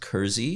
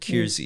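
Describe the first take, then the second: First: The first syllable sounds like 'cur'. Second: The first syllable does not sound like 'cur'. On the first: This is the family's own pronunciation. The speaker calls it right. "It's actually pronounced Kersey" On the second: This version is used so people understand it. The speaker calls it wrong. "we deliberately mispronounce it Keirsey"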